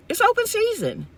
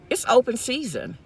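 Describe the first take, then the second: First: Much higher, an exasperated cry; high-pitched emphatic repeat. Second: Said in the usual way. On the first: Real, not acted. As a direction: throw the repeat up high in disbelief.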